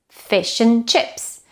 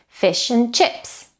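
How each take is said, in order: The two takes are said the same way.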